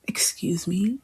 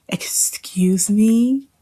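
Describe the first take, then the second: First: Soft disbelieving "Excuse me?" with a rise on "me"; hushed and offended, "Excuse me?" rising; quietly appalled "Excuse me?"; indignant. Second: Very slow, whispery "Excuse me?" stretched out with a rising "me"; exaggerated offended "Excuse me?"; drawn-out indignation. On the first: Indignant reaction to quote. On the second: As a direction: stretch "Excuse me?" in breathy disbelief. Repeated indignant reaction. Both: Real, not acted.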